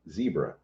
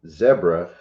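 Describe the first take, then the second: First: It uses the usual American pronunciation. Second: It uses the pronunciation common outside the US. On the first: "instead of zebra" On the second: "pretty much the whole world except for the U S says zebra"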